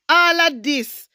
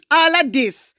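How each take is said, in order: Both takes have the same delivery.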